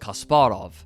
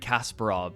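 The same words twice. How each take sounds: First: The name is said with Russian-like sounds. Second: The name is said with English sounds. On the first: This is closer to the native pronunciation. The speaker calls it right. "but it's Kasparov. And even if my accent is terrible, it's still closer to the correct pronunciation" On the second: This is the common way people say it. The speaker calls it wrong. "everyone calls him Gary Kasparov"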